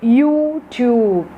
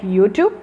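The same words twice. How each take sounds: First: The vowels are said long. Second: The vowels are said short. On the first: The speaker calls it right. "you have to use the long vowels like YouTube" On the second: The speaker calls it wrong. "Not the short vowels like YouTube"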